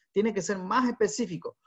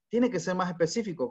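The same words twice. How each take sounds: First: "más" marcado y algo más agudo; énfasis en más. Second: Said in the usual way. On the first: Shown as a demonstration. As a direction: recalca la palabra "más" con tono más alto. (acento en "más", dicho más agudo)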